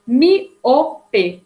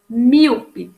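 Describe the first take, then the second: First: "miope" split as mi, o, pe; divided into syllables. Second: Said in the usual way. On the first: Shown as a demonstration. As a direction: say "miope" in three separate syllables, mi strongest. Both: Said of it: "que se divide".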